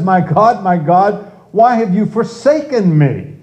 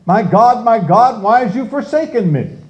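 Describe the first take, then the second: First: Raised, pleading voice crying out to God; anguished cry. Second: High, pleading voice crying out to God; anguished cry. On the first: Preacher voicing David crying out to God, pleading. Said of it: "It says". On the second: Preacher voicing David's cry to God, pleading and higher. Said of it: "how can you say". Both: Retold or imitated. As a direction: cry it out like a forsaken man.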